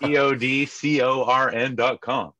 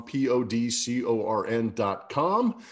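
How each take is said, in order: First: P O D C O R N spelled out slowly, letter by letter, high and loud; spelled out loudly. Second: P O D C O R N spelled out slowly at normal pitch and level; spelled out evenly. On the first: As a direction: shout P O D C O R N letter by letter. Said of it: "longest term relationship is with Podcorn". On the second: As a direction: spell P O D C O R N calmly, letter by letter. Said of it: "go to podcorn dot com". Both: Real, not acted.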